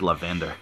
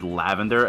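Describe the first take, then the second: First: LAVENDER stressed on the second syllable; mispronunciation. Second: LAVENDER stressed on the first syllable; usual pronunciation. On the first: Retold or imitated. Confessing a first misreading, lavender said la-VEN-der. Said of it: "I said lavender". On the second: Shown as a demonstration. Naming the word misread, lavender said LAV-en-der. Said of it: "the first time that I spoke aloud".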